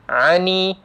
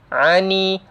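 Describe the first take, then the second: The two takes are said the same way.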